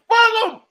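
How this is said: It is said in an impersonated comedian's voice.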